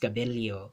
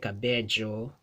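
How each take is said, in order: First: The double L is said as an li sound. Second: The double L is said the Chilean way. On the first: "but in the Philippines" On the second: "in Chile"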